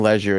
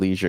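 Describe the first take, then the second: First: The word is said in a fancy-sounding way. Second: The word is said in an ordinary way. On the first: "I like saying leisure" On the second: "instead of leisure"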